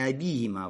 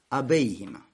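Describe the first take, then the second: First: The vowel after 'ab' is a plain 'i'. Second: The vowel after 'ab' is an 'ei' sound. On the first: The speaker calls it wrong. "не абиима" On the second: The speaker calls it right. "а абейима"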